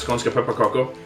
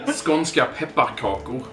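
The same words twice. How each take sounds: First: It is said at normal speed. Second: It is said more slowly.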